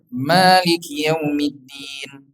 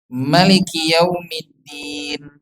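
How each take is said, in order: First: The vowel after the m is long. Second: The vowel after the m is short. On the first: This is the reading commonly heard locally. "bacaannya seperti yang kita dengar" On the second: This is another validly transmitted reading. "dibacanya tidak panjang mimnya"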